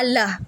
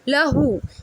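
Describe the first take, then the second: First: The word ends on h with no vowel. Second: The word ends with a long u vowel. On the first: The reciter stops on this word. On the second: The word is read in running recitation.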